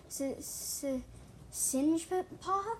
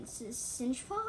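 First: Drawn-out stutter, rising high on Singepaw; hesitant repeat. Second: Slow, hesitant stutter on the first sound. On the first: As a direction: stammer twice, then stretch the questioning name. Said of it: "repeated, quieter". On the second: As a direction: stammer the S of Singepaw, then ask. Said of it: "I stuttered". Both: A narrator's reading.

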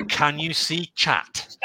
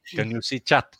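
First: Slow, spaced-out CAN YOU SEE CHAT; deliberate delivery, pausing through CAN YOU SEE CHAT; quoted classic line. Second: Said in the usual way. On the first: Retold or imitated. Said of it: "with his classic". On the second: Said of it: "It's just".

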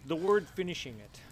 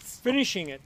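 First: Said in the usual way. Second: "finishing" punched louder and higher; stress on finishing. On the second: Shown as a demonstration. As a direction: hit "finishing" hard, falling off at the end.

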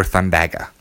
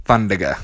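First: "Thundaga" with an open A in the middle; alternative pronunciation. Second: "Thundaga" with an unstressed middle syllable; first pronunciation. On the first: Gamer offering another way to say the spell, alternative pronunciation thun-DAG-uh. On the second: Gamer naming the spell he casts, first pronunciation THUN-duh-guh. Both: Shown as a demonstration. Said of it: "Or Thundaga".

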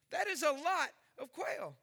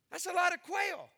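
First: Said in the usual way. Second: Emphatic. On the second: Real, not acted. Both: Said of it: "repeated for emphasis".

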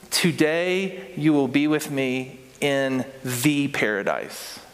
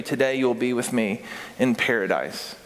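First: Slow, leaning on "the" before "paradise"; stress on the. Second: Said in the usual way. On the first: Shown as a demonstration. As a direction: lean on "the" in "the paradise", slowly. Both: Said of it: "what it literally says is".

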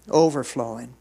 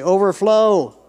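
First: Said in the usual way. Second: Loud, high shout of the word; ringing preacher's prompt; congregational call-out. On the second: Shown as a demonstration. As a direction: belt it out for the crowd to repeat.

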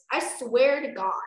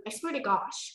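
First: Loud, exasperated mock fury; exasperated oath. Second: Said in the usual way. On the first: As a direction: swear it loudly, at wit's end. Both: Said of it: "I mean, no".

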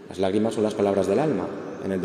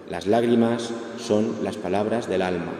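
First: Said in the usual way. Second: "Las lágrimas son las palabras del alma" stretched out slowly, each word weighed; slow emphatic repeat. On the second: Shown as a demonstration. The counsellor repeats the maxim to grieving listeners, slow and solemn.

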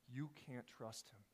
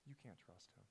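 First: Said in the usual way. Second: Much softer, lower "You can't trust him"; "You can't trust him" in a low hushed voice; Satan murmuring. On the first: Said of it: "preacher's own summary line". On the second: Retold or imitated. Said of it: "you can hear Satan say".

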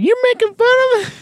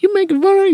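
First: Very high, fast parroting echo; copying her. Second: Very high mock woman's voice; woman's indignant voice. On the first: Retold or imitated. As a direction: mimic her back quickly. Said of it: "He's like". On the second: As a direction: squeal it as an offended lady. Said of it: "the woman's like".

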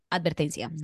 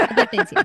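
First: Said in the usual way. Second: Much higher and louder, a theatrical squeal; hammed-up alarm-bell warning; mock dramatic warning. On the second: Shown as a demonstration. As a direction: Advertencia sung out high like a playful siren. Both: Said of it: "por eso digo, advertencia".

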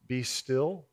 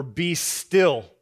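First: "be still" said softly and low, a gentle invitation. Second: "be still" said firmly, louder, a falling command. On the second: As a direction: give "be still" as a firm order. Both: Shown as a demonstration. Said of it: "you might read that as".

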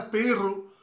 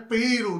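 First: Pirru said with a long trilled rr as in "perro"; Pirru with rolled r. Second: Piru said slowly, single tapped r as in "pero"; Piru, a quick flick of the tongue on the r; Piru with soft r. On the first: Host contrasting the wrong name, Pirru with a rolled rr. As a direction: roll the rr hard in Pirru. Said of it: "Ok, es Piru". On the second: Host correcting the name for the guest, Piru with soft r. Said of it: "no es Pirru". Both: Shown as a demonstration.

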